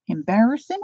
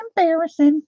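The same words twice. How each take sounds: First: Said in the usual way. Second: "embarrassing" repeated higher and louder; higher mock dismay. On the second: Real, not acted. Telling viewers crying is embarrassing, hammed-up high echo.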